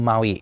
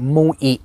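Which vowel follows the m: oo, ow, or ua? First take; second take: ow; oo. First: It is said mao-ee, with an ow vowel. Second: It is said moo-ee, with an oo vowel. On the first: The speaker calls it right. "มันคือ, Maui" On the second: The speaker calls it wrong. "ไม่ใช่มูอิ"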